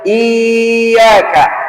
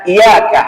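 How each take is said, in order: First: A vowel is stretched out long. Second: The y sound is short and single. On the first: "berarti antum kasih mat" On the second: "tanpa tasydid"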